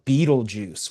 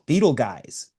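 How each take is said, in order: First: The second part sounds like 'juice'. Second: The second part sounds like 'guys'. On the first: The speaker calls it right. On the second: The speaker calls it wrong. "pronounces it wrong"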